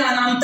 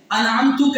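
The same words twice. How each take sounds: First: انعمت clipped short with a long open first vowel, "aanamt"; wrong pronunciation. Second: انعمت with the ending "-ta", clearly sounded; correct pronunciation. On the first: Preacher demonstrating the wrong انعمت, clipped mispronunciation. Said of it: "اس کا تلفظ ہی صحیح نہیں ہے". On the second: Preacher demonstrating the correct انعمت, careful pronunciation. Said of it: "کہہ رہے ہیں یا". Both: Shown as a demonstration.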